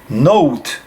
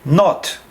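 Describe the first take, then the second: First: The vowel is o gliding into a w sound. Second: The vowel is a plain, short o sound. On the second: "We say not"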